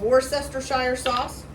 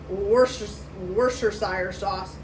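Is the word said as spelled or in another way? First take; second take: as spelled; another way. First: The word is pronounced just as it is spelled. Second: The word is pronounced differently from its spelling. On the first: "I kind of say it like it looks like it's pronounced" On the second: "I've heard some people say"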